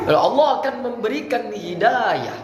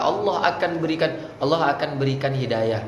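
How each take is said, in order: First: "Allah akan memberikan hidayah" pitched high and stressed; firm emphasis. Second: Unemphatic, distracted. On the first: Coach shows firm delivery of "hidayah", high and emphatic. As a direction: drive home "hidayah" with a high, held vowel. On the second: Coach mimics a speaker hunting the next line, not firm. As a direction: run through it without emphasis. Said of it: "kenapa nggak tegas ngomongnya?". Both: Shown as a demonstration.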